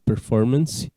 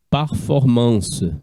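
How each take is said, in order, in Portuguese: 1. A palavra é pronunciada do jeito inglês. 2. A palavra é pronunciada do jeito francês. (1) "vai para o inglês como performance" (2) "deriva do francês antigo"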